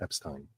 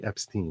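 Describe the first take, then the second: First: The last syllable is said with an 'eye' sound. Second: The last syllable is said with an 'ee' sound. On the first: This is the later, more American way of saying it. "it's more American to pronounce it as Ein" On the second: This is how the family originally said it. "it was once pronounced E"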